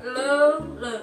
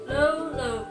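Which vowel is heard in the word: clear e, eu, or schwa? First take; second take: eu; eu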